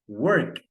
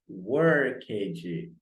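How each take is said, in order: First: The ending is a plain T sound. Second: The ending is not a plain T sound. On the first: The speaker calls it right. "o word é pronunciado com som de T" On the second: The speaker calls it wrong. "Muitas pessoas leem assim errado"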